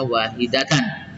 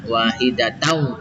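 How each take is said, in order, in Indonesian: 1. Kata ini berakhir dengan bunyi n yang jelas. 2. Huruf n di akhir menyatu menjadi bunyi w sengau. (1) "tidak dibaca wahidatan" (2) "idgham bi gunnah masuk dengan dengung"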